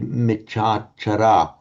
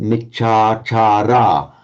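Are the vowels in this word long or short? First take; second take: short; long. First: The vowels are said short, English style. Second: The three vowels are held long. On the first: The speaker calls it wrong. "we'd have this natural tendency to say" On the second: The speaker calls it right. "those three long vowels"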